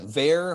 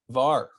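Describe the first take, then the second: First: It is said like the start of 'variable'. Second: It is not said like the start of 'variable'. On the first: "maybe you should pronounce that var for variable" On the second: "So we'll say var"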